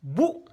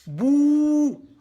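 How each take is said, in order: First: "Bou" with a brief oo; quick, short "Bou"; short vowel. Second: "Bou" held long and high; sustained, raised "Bou"; long vowel. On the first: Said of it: "les voyelles brèves". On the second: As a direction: stretch the oo of "Bou". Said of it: "C'est tiré". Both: Shown as a demonstration.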